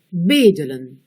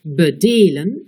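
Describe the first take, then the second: First: Bedelen said BE-de-len with a full first e; bedelen, hitting BE; stress on first syllable. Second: Bedelen said be-DE-len with a weak first e; Bedelen, leaning on DE; stress on second syllable. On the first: Teacher replaying the contrast for learners, first-syllable stress. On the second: Teacher replaying the contrast for learners, second-syllable stress. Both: Shown as a demonstration. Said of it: "Réécoutez".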